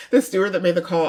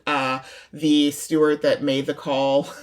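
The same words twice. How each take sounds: First: Laughing through the words; breaking into a laugh mid-phrase. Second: Said in the usual way. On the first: Real, not acted. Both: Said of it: "I'm not laughing that he got".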